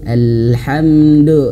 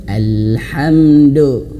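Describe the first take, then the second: Both takes have the same delivery.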